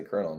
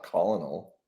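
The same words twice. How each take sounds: First: "Colonel" said like "kernel"; "Colonel" in two syllables, with an r sound; kernel pronunciation. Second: "Colonel" sounded out as it is spelt; "Colonel" with an l and three syllables; spelling pronunciation. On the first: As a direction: say "Colonel" as KER-nel. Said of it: "Sounds like how you say Colonel". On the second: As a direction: say "Colonel" as COL-o-nel. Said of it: "not Colonel". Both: Shown as a demonstration.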